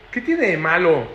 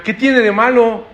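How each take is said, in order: First: Said in the usual way. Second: Slow, loud and raised, pushing back; rebellious child defying an old-fashioned parent; defiant taunt. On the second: Acted. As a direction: challenge the parent, drawn out. Children mocking a parent's old ways.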